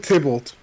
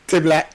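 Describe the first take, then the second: First: The name is said in its standard form. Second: The name is said with its sounds jumbled. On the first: The speaker calls it right. "He was trying to say Tybalt" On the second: The speaker calls it wrong. "him mispronouncing something"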